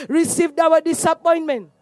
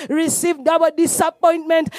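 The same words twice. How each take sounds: The two takes are said the same way.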